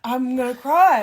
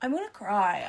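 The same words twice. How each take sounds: First: Louder, half-joking whiny wail; hammed-up pretend despair; playful mock crying wail. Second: Said in the usual way.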